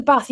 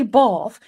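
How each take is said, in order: First: Said in the usual way. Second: "Bath" with a long, open ah; posh long-vowelled "Bath"; posh pronunciation. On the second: Shown as a demonstration. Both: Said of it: "it's very posh in Bath".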